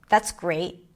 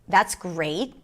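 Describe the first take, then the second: The two takes are said the same way.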